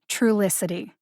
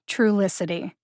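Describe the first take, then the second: No difference in how they are said.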